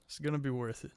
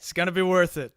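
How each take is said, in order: First: Soft murmured promise; quiet. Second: Said in the usual way. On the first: Real, not acted. Repeats promise much softer.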